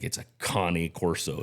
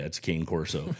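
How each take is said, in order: First: Cane Corso gets the breed enthusiasts' pronunciation. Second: Cane Corso gets the everyday, common pronunciation. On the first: The speaker knows the breed well. "If you're a, a breed enthusiast, you're going to be like" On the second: The speaker is not a breed expert. "If you're just a normal human, you're like"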